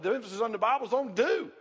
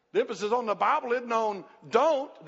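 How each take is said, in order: First: "do" held up with a rising finish; stress on do. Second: "don't" punched and falling; stress on don't. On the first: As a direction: lift "do" as the positive answer. Gives the positive half of contrast. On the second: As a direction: hit "don't" hard, then let it drop. Contrasts don't with do. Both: Real, not acted.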